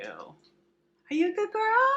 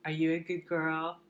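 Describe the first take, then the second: First: Very high, slow, louder squeal; talking to a dog. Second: Said in the usual way. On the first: Real, not acted. Cooing at the dog.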